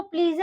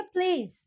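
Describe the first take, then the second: First: प्लीज with final e sounded, "plee-zeh"; mispronounced please. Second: Said in the usual way. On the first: Shown as a demonstration. Teacher showing what not to say, प्लीज as "plee-zeh". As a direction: add an extra vowel after प्लीज. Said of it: "नहीं बोलेंगे हम". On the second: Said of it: "हम उसको बोलेंगे".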